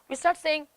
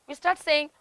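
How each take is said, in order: Both takes have the same delivery.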